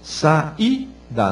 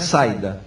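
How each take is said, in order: First: The i is said as a separate syllable. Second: The i glides together with the a. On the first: The speaker calls it right. "Saída, né? ... Sa eu saí. Hiato" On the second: The speaker calls it wrong. "não é saída. Você saída seria de tongo"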